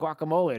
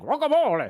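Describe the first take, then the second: First: It is said plainly, with no accent. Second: It is said in a put-on foreign accent.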